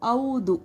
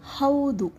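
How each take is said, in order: First: The word begins without an h sound. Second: The word begins with an h sound. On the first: The speaker calls it wrong. "There is no word called au" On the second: The speaker calls it right. "Haudu means yes"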